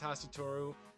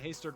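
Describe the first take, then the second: First: The name is said with four Japanese-style syllables. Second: The name is said as two short English-style syllables. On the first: This is believed to be the original form. "I think it's Hasatoru" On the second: This is the form the text uses. "I'm just saying Hastur"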